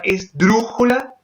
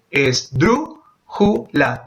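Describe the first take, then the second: First: Said in the usual way. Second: "esdrújula" counted out as es, drú, ju, la; very slow "esdrújula" with a pause between syllables. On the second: Shown as a demonstration.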